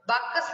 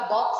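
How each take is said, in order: First: बाकस said as "baakas" with an extra vowel; wrong pronunciation. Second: बॉक्स said as one syllable, "box"; correct pronunciation. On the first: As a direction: say बाकस as two syllables, "baa-kas". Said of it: "नहीं होता". (बाकस को "बा-कस" बोलना) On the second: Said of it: "होता है". (बॉक्स का शुद्ध उच्चारण "बॉक्स") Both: Shown as a demonstration.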